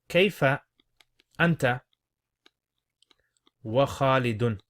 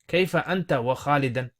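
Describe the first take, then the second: First: The last word ends with a u vowel. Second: The last word ends with an a vowel. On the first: It asks how the listener and Khalid both are. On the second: It asks about the listener's relationship with Khalid.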